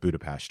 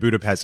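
First: The city name is said the local way. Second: The city name is said the usual English way. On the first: "Hayes came out with Budapest" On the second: "for saying I was going to Budapest"

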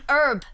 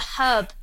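First: The word begins with a vowel, no h. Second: The word begins with an audible h sound. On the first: The speaker calls it wrong. "It's not an herb. What's an herb? It doesn't begin with a U" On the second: The speaker calls it right. "It's got a H. It has a H. It's a herb"

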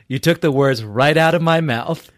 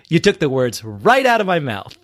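First: It is said without an audible smile. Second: It is said with an audible smile.

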